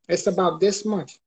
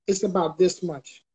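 Both takes have the same delivery.

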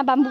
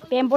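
First: बाम्बू with "aam-boo" sounds; corrected pronunciation. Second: बैम्बो with an "em-bo" sound; mispronunciation. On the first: Vlogger correcting the word to बाम्बू, with "oo" ending. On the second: Vlogger showing the wrong way to say बैम्बो, with "o" ending. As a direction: say बैम्बो, first vowel "ai", ending in "o". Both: Shown as a demonstration. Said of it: "बैम्बो ना बाम्बू बोलता है".

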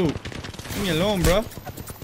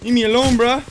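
First: Said in the usual way. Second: Louder plea. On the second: Real, not acted.

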